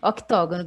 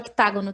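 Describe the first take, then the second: First: The vowel after 'oct' is an 'o'. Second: The vowel after 'oct' is an 'a'. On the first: "Octógono que chama" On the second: "pode chamar de octágono também, que não é errado"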